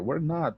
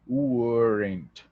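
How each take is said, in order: First: Were and not are said as two separate words. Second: The two words are joined into one quick syllable. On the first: "fica meio difícil para falar assim ... quebrando" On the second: "existe uma maneira mais rápida de falar"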